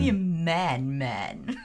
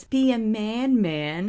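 First: Lower, laughing spy-movie voice; lightly voiced swinging spy, fading to a murmur; a hint of a groovy British spy; Austin Powers. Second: Said in the usual way. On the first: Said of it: "There's something very Austin Powers about that line". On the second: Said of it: "But she says".

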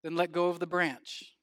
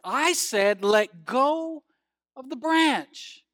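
First: Said in the usual way. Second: Raised, louder insistent command, drawn out at the end; insistent repeat. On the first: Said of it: "To which the voice replied". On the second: Acted. Voice from the cliff repeating its order, insistent. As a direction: insist on it, stretching the final words. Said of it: "The voice said once more".

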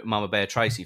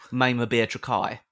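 First: Said in the usual way. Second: "Trakai" said as tra-KAI, rhyming with sky; deliberate mispronunciation. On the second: Shown as a demonstration. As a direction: stretch "Trakai" to end on a long kai sound. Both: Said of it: "deliberate mispronunciation of words".

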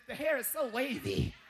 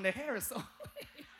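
First: A light mock of the wife gushing; imitating wife. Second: The wife's line broken by a laugh; laughing repeat. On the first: Husband imitating his wife admiring a horse picture, light gushing. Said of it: "She said". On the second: Shown as a demonstration. Preacher repeats his wife's words to the church, laughing. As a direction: laugh your way through the quote. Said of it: "Use that one".

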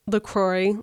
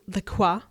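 First: LaCroix said la-KROY, every letter sounded; Americanized LaCroix, hard r and oy; mock mispronounced LaCroix; wrong LaCroix. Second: LaCroix said la-KWAH, French style; proper French LaCroix. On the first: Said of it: "the people who pronounce". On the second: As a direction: LaCroix with the French wah ending. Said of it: "people say LaCroix 'cause, like, it's French". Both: Shown as a demonstration.

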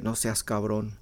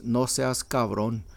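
First: Softer repeat. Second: "No seas cabron" said slowly in Spanish; slow Mexican Spanish "No seas cabron", spelled out for listeners; Spanish phrase demo. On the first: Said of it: "that's how they say it". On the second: Teaching listeners a Mexican phrase, slow Spanish "No seas cabron". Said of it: "The first one is when someone says". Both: Shown as a demonstration.

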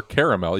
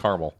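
First: Caramel as "CARE-uh-mel"; caramel opened with "care", "CARE-uh-mel"; three-syllable pronunciation. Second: Caramel as "CAR-mul"; caramel starting like "car", two beats; two-syllable pronunciation. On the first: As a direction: give caramel all three vowels, ending in "mel". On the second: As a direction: say caramel short, dropping the middle vowel, "CAR-mul". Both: Shown as a demonstration. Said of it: "even though I say caramel".

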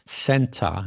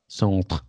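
First: "centre" said SEN-tuh; everyday British "centre", no r sounded; English pronunciation. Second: "centre" said the French way, SONN-truh; mock-French "centre", roughly sahn-tr; French-style pronunciation. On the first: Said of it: "'cause we say centre". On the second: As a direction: say "centre" with a French nasal vowel and throaty r. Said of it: "We don't say it like that". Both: Shown as a demonstration.

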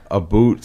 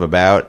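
First: "a boot" for about, with an oo vowel; Canadian "about". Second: Said in the usual way. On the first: Shown as a demonstration. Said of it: "You say, uh". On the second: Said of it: "instead of about".

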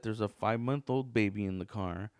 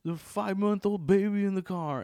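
First: Said in the usual way. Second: High, loud road-rage screech; loud mock scream, pitched up; imitated yell. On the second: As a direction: mimic a furious woman yelling from her car. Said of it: "and then she yells".

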